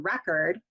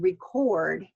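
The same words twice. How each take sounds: First: The stress is on the first syllable. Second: The stress is on the last syllable. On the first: It is used as a noun. "which is our noun" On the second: It is used as a verb. "which is our verb"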